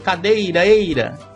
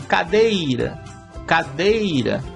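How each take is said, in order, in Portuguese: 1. As repetições se emendam, sem nenhum intervalo. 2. As repetições são separadas por uma pausa clara. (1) "a reverberação, você vai ouvir algo como cadeireira" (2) "Aí você ouviria assim, ... Aí é o eco"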